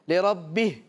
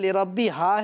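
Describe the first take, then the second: First: The word ends on a consonant, the vowel dropped. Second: The word ends on a long a vowel. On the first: The speaker calls it wrong. "ایسا نہیں کہ اس کو آپ کر دیں لِرَبِّه، یہ غلطی ہو جائے گی" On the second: The speaker calls it right. "بلکہ لِرَبِّهَا ہے"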